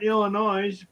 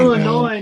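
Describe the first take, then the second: First: The final S is pronounced. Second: The final S is silent. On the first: The speaker calls it wrong. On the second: The speaker calls it right. "The S is silent"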